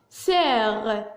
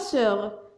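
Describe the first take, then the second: First: The vowel is an open 'è' sound. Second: The vowel is a rounded 'eu' sound. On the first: The speaker calls it right. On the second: The speaker calls it wrong.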